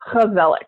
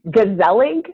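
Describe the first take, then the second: First: The word begins with a throaty H sound. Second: The word begins with a hard G sound. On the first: The speaker calls it right. "that G, instead of it being a G, it's a H, like an H. You have to cough up a little bit there" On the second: The speaker calls it wrong. "here it looks like it says gezellig"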